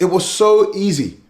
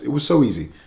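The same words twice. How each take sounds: First: It is said loudly and heatedly. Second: It is said quietly and more calmly.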